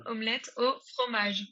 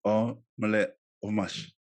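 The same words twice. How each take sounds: First: "Omelette au fromage" in French, "au" as "o", uvular r; careful native "Omelette au fromage"; native French model. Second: "Omelette au fromage" with an American accent, the r dropped; learner's try at "Omelette au fromage"; learner's repeat. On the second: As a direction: copy "Omelette au fromage" haltingly. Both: Shown as a demonstration.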